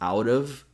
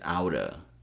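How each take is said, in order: First: The v sound at the end is pronounced. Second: The v sound at the end is dropped.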